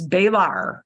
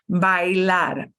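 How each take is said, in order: First: It is said with an English-style pronunciation. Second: It is said with a Spanish pronunciation. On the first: The speaker calls it wrong. "your English brain really desperately wants to pronounce this as bailar" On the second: The speaker calls it right. "but no es bailar. Bailar"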